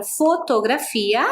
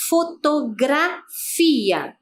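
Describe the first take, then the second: First: Said in the usual way. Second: FOTOGRAFIA in slow, separated syllables. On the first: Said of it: "Já na palavra fotografia". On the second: Shown as a demonstration. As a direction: stretch Fotografia out piece by piece to show gra. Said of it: "olha o som". (Fotografia dito devagar, sílaba por sílaba)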